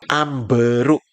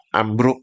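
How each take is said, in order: First: It is said with three syllables, an added vowel. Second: It is said with two syllables, no extra vowel. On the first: This is the Malaysian form. "Di Maledes tulisannya apa? A M B E R U K" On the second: This is the Indonesian form. "Kalau kita dalam bahasa Indonesia kan ejaannya A M B R U K"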